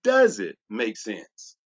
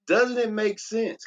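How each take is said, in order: First: Slow, dropped pitch on "Does it make sense", pressing on "Does"; low pointed question. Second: Slow, raised pitch on "Doesn't it make sense?", leaning in on "Doesn't"; high rhetorical question. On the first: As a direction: sink the voice and ask it slowly, driving the point home. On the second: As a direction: ask it up high and slowly, inviting agreement. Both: Shown as a demonstration. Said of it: "Can I ask you this question?".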